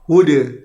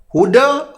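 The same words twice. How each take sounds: First: The final vowel leans strongly toward i. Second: The final vowel is a fully open a. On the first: "imalah dibaca dengan huda"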